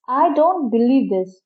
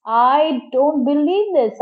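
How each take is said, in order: First: Mildly exasperated groan; groaned disbelief. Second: Slow, drawn-out, higher-pitched disbelief; muttered disbelief. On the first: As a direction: groan it with understated dismay. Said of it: "I groaned". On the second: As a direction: stretch it out in exasperated disbelief. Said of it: "I muttered". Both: A narrator's reading.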